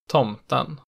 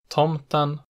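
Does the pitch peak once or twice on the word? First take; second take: twice; once. First: Pitch falls on stressed vowel, then peaks again after. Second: Pitch rises to a single peak after the stressed vowel. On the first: "a double peak in accent 2" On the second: "it has a single pitch peak in accent 1"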